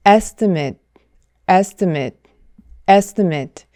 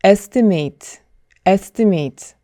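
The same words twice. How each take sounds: First: Estimate ending in 'met', ESti-met; noun estimate. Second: Estimate ending like 'mate'; spelled-out estimate. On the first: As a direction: estimate with the final syllable cut short to 'met'. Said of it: "mate가 아니라 met로". (명사 발음 estimate) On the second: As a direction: estimate said letter by letter. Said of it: "글자 그대로 발음하면 안 되고". (글자 그대로 읽은 estimate) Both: Shown as a demonstration.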